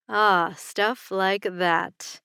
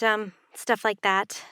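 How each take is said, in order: First: Slow, teasing repeat of "Ah, stuff like that"; teasing murmur. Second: Said in the usual way. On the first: Acted. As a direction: drag it out to tease her. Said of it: "he murmured in a teasing voice".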